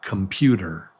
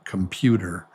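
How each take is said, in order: First: The unstressed vowels are reduced to quick schwas. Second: The same.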